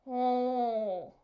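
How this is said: The L sound is nasal and muffled. The speaker calls it wrong. "it sounds a little more like "oh.""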